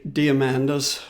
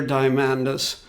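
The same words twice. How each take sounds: First: "Diamandis" starting like "dee-uh"; alternative pronunciation. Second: "Diamandis" starting like "die"; first pronunciation variant. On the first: Offering the other way to pronounce Peter's surname, alternative pronunciation. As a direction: say "Diamandis" as DEE-uh-MAN-dis. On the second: Giving one of two ways to pronounce Peter's surname, first pronunciation variant. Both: Shown as a demonstration. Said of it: "I've heard it pronounced both ways".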